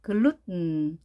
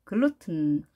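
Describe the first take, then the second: First: 글루튼 as "gloot-n", tongue held, straight into n; 글루튼 with no vowel between t and n; nasal-released t. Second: 글루튼 with the 튼 released as t plus weak n; clear t. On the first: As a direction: stop the t of 글루튼 and release it through the nose. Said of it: "넘어가게 발음을 하기도 합니다". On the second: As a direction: say 글루튼 with an audible t, stress on 루. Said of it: "발음이 되겠죠". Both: Shown as a demonstration.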